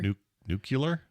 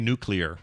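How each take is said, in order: First: The word is said in an altered form. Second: The word is said in its usual form. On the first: The speaker calls it wrong. "Is that how you say it wrong? / yeah, that's how you say it wrong" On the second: The speaker calls it right. "I say nuclear"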